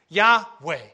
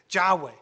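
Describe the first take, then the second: First: The name begins with a Y sound. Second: The name begins with a J sound. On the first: The speaker calls it right. "So we know it's not J, it's Y" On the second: The speaker calls it wrong. "we know the J there doesn't exist"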